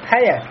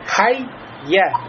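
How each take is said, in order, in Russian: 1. Звук 'y' одиночный и короткий. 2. Звук 'y' удвоен и произносится дольше.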